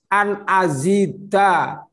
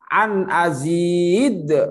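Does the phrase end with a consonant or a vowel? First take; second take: vowel; consonant. First: The phrase ends with a final vowel. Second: The phrase ends on a bounced consonant. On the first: This is how it is written. "Tulisannya an azida" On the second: This is how it is read when stopping. "Dibacanya kalau berhenti an azid"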